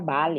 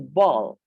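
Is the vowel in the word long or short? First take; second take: short; long. First: The vowel is said short. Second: The vowel is said long. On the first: The speaker calls it wrong. "Jangan ada yang menyebutnya bal ya. Bal itu berbeda" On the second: The speaker calls it right. "ini ball"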